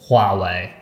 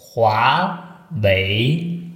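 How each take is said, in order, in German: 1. Er wird deutsch ausgesprochen. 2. Er wird mit zwei steigenden chinesischen Tönen ausgesprochen. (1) "Von ihrer deutschen Werbung hört man ständig Huawei" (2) "also zweimal Hochtone"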